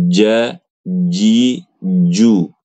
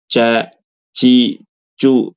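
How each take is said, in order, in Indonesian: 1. Konsonan itu terdengar seperti bunyi j. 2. Konsonan itu terdengar seperti bunyi ch. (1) "harus ja, ji, ju" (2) "kayak huruf C"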